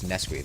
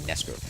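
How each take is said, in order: First: The name ends with an 'ee' sound. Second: The name ends with an 'er' sound. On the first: The speaker calls it wrong. "whose name I had been mispronouncing for a very long time as Neskri" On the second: The speaker calls it right. "I think it's actually Nesker"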